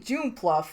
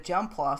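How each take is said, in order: First: The first part sounds like the word June. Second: The first part sounds like the word jump. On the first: The speaker calls it wrong. "so I call it June pluff" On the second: The speaker calls it right. "I never realized that it was just jump, like the word"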